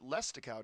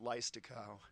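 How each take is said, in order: First: The first syllable sounds like 'less'. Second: The first syllable sounds like 'lie'. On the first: This is how the name's owner says it. The speaker calls it right. "I think you pronounce it Lestikow" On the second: This is a guess from the spelling. The speaker calls it wrong. "because of the I after the E, I always pronounced it Leistikow"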